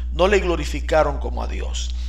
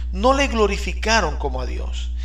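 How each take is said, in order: No difference in how they are said.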